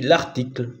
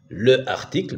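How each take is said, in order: First: The article's vowel is dropped before the noun. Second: The article's vowel is pronounced in full. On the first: "ben on dit l'article" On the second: "par exemple le article"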